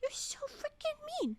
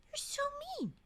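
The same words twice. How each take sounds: First: Much higher, whiny you're so freaking mean; whiny high complaint. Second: Said in the usual way. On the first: Real, not acted. Streamer scolding a character, high whiny pout. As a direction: pout it out in a squeaky voice.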